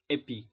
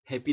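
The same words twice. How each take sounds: First: The word starts without any h sound. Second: The word starts with an audible h sound. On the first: "mereka sering mengatakan happy" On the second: "happy dalam bahasa Inggris"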